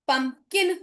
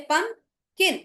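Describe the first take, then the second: First: Said in the usual way. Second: pumpkin broken in two, "pum", clear pause, "kin"; split into syllables. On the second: Shown as a demonstration. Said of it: "तो P U M".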